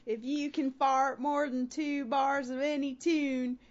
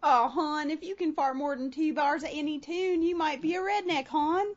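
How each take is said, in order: First: Put-on slow, drawn-out Baltimore accent. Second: Put-on Baltimore accent. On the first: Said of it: "no, that's all Baltimore". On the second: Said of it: "it still works for Baltimore".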